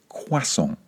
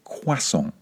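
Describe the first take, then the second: First: The word is said with French sounds. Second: The same.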